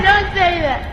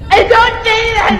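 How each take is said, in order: First: Said in the usual way. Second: High, loud protest. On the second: Real, not acted. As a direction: shout it down. Objecting to friend's remark.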